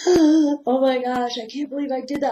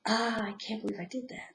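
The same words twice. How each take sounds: First: Horrified at your own mistake; shocked inner voice. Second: Soft whisper of self-reproach; whispered inner voice. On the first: Inner voice reacting to own mistake, shocked and higher. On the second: Inner voice scolding oneself, whispered. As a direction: hush it like a guilty thought. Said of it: "And then that voice goes". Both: Pretend.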